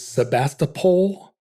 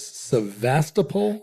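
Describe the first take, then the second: First: The second consonant is a B sound. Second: The second consonant is a V sound. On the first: This is the older way the name was said. "for most of our lives it was Sebastopol" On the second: This is how the name is said now. "now it's Sevastopol"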